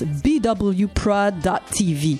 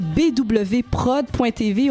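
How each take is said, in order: First: The name is pronounced with English sounds. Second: The name is pronounced with French sounds. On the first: "si on est anglophone, on y va avec la deuxième option" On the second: "si on est francophone, on y va avec la première"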